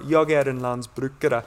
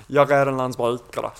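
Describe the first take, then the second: First: "Jag är en landsbrukare" in clear, standard Stockholm-style Swedish. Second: "Jag är en landsbrukare" in a Skånska accent, throaty r in the back of the throat; southern Swedish Skånska, words pushed to the back of the throat; Skånska dialect. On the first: Teaching friends the Swedish for farmer, in standard Swedish. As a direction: say "Jag är en landsbrukare" the textbook way, crisp r's. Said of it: "So I'd say". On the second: Showing friends his best mate's Skånska accent, in thick Skånska. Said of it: "if I said it with a Skånska dialect". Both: Shown as a demonstration.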